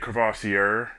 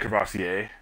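First: The word is said with an English pronunciation. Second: The word is said with a French pronunciation. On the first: The speaker calls it wrong. "you don't say Crevassier" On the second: The speaker calls it right. "You pronounce it with a French accent"

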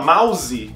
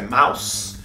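First: It is said with a Brazilian Portuguese pronunciation. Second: It is said with an English pronunciation. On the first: The speaker calls it wrong. "no Brasil a gente fala mouse, que não é mouse" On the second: The speaker calls it right. "a pronúncia é mouse"

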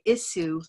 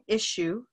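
First: The middle consonant is a hissing S sound. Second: The middle consonant is a hushing SH sound. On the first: The speaker calls it wrong. "feel like they are telling you to say" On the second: The speaker calls it right. "these two S's become an SH sound"

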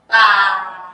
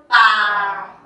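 First: The syllable is said on a low pitch. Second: The same.

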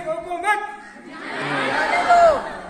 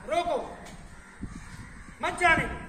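First: There is a pause after मत. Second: There is a pause after रोको.

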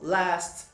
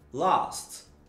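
First: The vowel is a front sound close to 'e'. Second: The vowel is an open back 'ah' sound. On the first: "No inglês americano, o A, muitas vezes ele é pronunciado como E" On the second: "Agora eu vou tentar arriscar meu inglês britânico"

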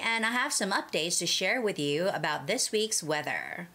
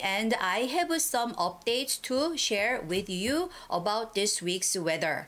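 First: It is read with a fluent American accent. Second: It is read with a typical Korean accent.

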